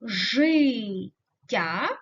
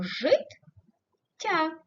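First: ЖИТТЯ split as жи ... ття, long pause after the open жи; Життя broken before the double т; syllable break. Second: ЖИТТЯ split as жит ... тя, long pause between the two т; життя broken inside the double т; syllable break. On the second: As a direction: stop short on жит, pause, then тя in життя. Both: Shown as a demonstration. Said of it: "переносять по-різному".

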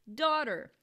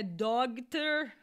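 First: "daughter" with silent gh, DAW-der; slow, loud American "daughter", tapped t; correct pronunciation. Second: "doctor" with a hard g sounded, DOG-ter; loud spelling pronunciation "doctor", DOG-ter; mispronounced daughter. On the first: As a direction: say "daughter" clearly, no g at all. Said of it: "É daughter". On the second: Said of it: "Não é doctor". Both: Shown as a demonstration.

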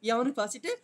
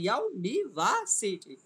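First: Said in the usual way. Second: "university" very slowly, a break after each syllable. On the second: Shown as a demonstration. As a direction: count out the syllables of "university", each one separate. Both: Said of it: "মোট হচ্ছে পাঁচটা syllable আছে".

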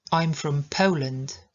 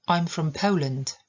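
First: "I'm from Poland" slowly, "Po" gliding to w; slow it down, POH-land; slow model. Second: "I'm from Poland" with "Po" as a gliding "oh"; careful model. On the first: Teacher repeating slowly for students. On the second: Teacher modelling an important sentence. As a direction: say "Poland" as POH-land. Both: Shown as a demonstration. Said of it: "bardzo ważne dla nas zdanie".

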